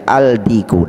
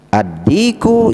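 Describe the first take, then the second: First: A clear L is heard before the D. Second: The L blends into a doubled D sound. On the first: The speaker calls it wrong. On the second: The speaker calls it right.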